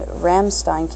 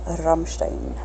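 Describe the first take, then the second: First: Said in the usual way. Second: Rammstein with rolled R and "shtein" ending; German pronunciation. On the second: Shown as a demonstration. Fan echoing the band's name, German pronunciation. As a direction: say Rammstein as a German would, a little softer.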